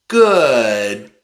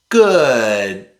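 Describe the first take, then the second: No difference in how they are said.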